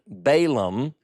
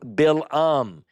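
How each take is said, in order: First: The name is said in a southern English way. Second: The name is said in a Semitic way. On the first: "my southern Balaam, which is the way I learned to pronounce it growing up" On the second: "Bilam is actually the seer of talking donkey fame's name according to Semitic language"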